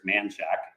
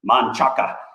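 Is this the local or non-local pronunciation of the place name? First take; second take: local; non-local. First: The name is said the way locals say it. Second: The name is said the way outsiders say it.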